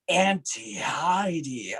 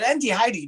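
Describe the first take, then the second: First: AUNTIE HEIDI drawn out slowly; slowed-down name. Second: AUNTIE HEIDI run through quickly, slightly higher; rushed name. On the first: Shown as a demonstration. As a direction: give "Auntie Heidi" room to breathe. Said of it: "slow yourself down a little bit". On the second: Retold or imitated. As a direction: breeze through "Auntie Heidi" without a pause. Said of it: "ran through your name".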